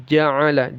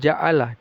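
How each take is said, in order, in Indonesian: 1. Konsonan tengahnya adalah bunyi faringal yang berat dari tenggorokan. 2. Konsonan tengahnya adalah hamzah biasa. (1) "tapi ja'ala" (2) "jangan ja'ala"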